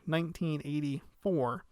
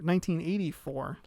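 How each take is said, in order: First: The words are articulated clearly and carefully. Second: The words are articulated loosely and quickly. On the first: The speaker calls it right. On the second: The speaker calls it wrong.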